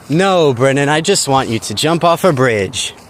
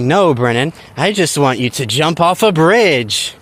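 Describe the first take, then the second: First: It is said in a plain, sincere tone. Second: It is said in a mocking, sarcastic tone. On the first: The speaker really means it. "If they say that to me, I'm going to be really sad" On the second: The speaker means the opposite. "But if they say"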